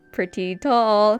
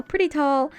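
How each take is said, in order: First: "pretty tall" slowly stretched out; drawn-out emphasis. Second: Said in the usual way. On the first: Real, not acted. Artist describing her very tall favorite character, drawn out. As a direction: draw out both words, lingering on "tall". Drags words, then repeats them.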